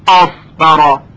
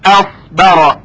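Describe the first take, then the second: First: The opening hamza is heavy and thickened. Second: The opening hamza is light and thin. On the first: The speaker calls it wrong. "نگوییم اف برا" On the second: The speaker calls it right. "ترقیق کنیم همزه را"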